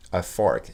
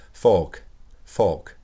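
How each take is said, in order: First: American fork, r fully sounded; American accent. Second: British "fork", the r almost dropped; British accent. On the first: French teacher modelling the American word, American accent. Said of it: "on entend bien l'accent américain fork". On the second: French teacher contrasting English with American, British accent. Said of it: "Ils diraient quelque chose plus du genre". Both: Shown as a demonstration.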